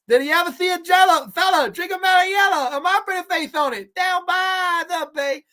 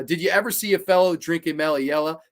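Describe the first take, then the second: First: Much higher, louder put-on dusty singsong. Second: Said in the usual way. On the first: Shown as a demonstration. Redoing the camp song for chat in a dusty voice. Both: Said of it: "let me do that in a dusty voice".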